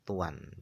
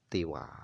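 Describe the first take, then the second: First: First vowel u, with a final n sound. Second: First vowel i, no final n sound. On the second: "dibaca kasra ta'nya"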